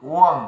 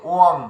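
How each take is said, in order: No difference in how they are said.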